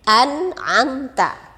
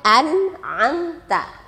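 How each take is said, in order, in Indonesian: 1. Suku kata pertama berakhir dengan bunyi n. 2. Suku kata pertama berakhir dengan bunyi n.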